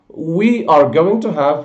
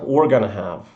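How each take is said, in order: First: Every word is said in full. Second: We're and gonna are both reduced forms.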